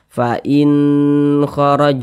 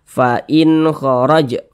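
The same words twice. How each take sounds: First: The 'in' sound is drawn out long. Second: The 'in' sound is kept short. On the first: The speaker calls it wrong. "Jangan dibaca ... jangan dipanjangkan seperti itu" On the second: The speaker calls it right. "baca pendek saja"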